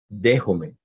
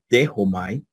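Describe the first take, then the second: First: The ending is pronounced as 'e'. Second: The ending is pronounced as 'ai'.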